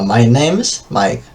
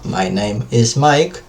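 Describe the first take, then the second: First: The word 'is' is shortened to an s sound. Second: The word 'is' is said in full, separately. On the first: "Entonces digo my name's Mike" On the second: "En vez de decir my name is"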